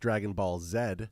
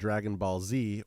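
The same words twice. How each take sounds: First: The letter Z is said the Canadian way, 'zed'. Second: The letter Z is said the American way, 'zee'.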